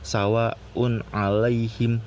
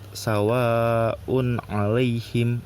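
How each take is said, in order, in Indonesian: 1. Vokal panjang itu ditahan selama satu ketukan. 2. Vokal panjang itu ditahan selama dua ketukan. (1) "satu rokat" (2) "dua rokat"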